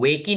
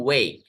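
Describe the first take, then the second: First: वेक ही run together as "way-kee"; two beats, वेक ही, with an "ee" ending; wrong two-syllable reading. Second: Said in the usual way. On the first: Shown as a demonstration. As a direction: sound the final e in वेक ही. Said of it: "नहीं पढ़ते हैं". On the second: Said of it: "हम पढ़ते हैं वेक".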